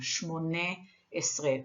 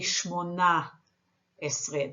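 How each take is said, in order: First: The first word ends with an 'e' vowel. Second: The first word ends with an 'a' vowel. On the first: The speaker calls it right. "The correct way of saying this number is shmone esre, with an e sound under the nun" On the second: The speaker calls it wrong. "People say shmona esre. That is incorrect"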